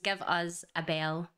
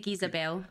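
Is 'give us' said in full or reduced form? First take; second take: full; reduced. First: 'Give us' is said as two full words. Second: 'Give us' is squeezed into one short syllable.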